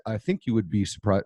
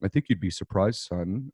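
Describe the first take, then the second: First: Said in the usual way. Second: A hint of Dad, pitch settling lower at the end. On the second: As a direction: lightly imitate your father addressing his son. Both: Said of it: "Let me do my dad voice".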